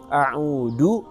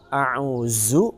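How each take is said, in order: First: The middle consonant is a d sound. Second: The middle consonant is a z sound. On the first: "maka ini huruf da" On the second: "maka ini huruf za"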